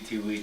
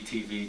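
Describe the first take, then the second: First: The middle consonant is a w sound. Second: The middle consonant is a v sound. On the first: "that same letter can be pronounced B or W" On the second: "like Vajra"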